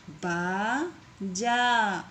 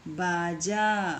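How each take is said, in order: First: बाजा stretched very slowly, syllable by syllable. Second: Said in the usual way. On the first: Shown as a demonstration. Teacher to pupils, sounding out बाजा very slowly. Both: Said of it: "इस तरीके से आपको शब्दों को पढ़ना है".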